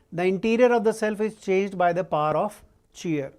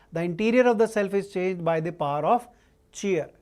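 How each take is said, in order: The two takes are said the same way.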